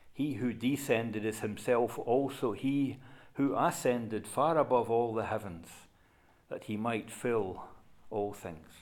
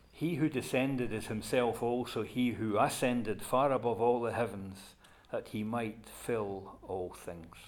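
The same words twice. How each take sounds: No difference in how they are said.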